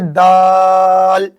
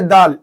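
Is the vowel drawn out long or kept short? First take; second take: long; short. First: The vowel is drawn out long. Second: The vowel is kept short. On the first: The speaker calls it right. "इसको हम खींच के कहेंगे दाल" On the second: The speaker calls it wrong. "ऐसा नहीं कहेंगे दाल"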